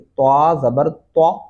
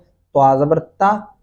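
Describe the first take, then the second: First: The last syllable is a heavy, rounded 'twa'. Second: The last syllable is a plain, light 'ta'. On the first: The speaker calls it right. "यही बोलना है आपने।" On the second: The speaker calls it wrong. "ये गलती है।"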